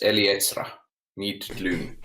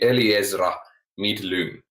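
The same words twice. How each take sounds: First: The z in the first name sounds like ts. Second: The z in the first name sounds like z. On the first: "So like T S" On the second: "So I would say Eliezra Midlung"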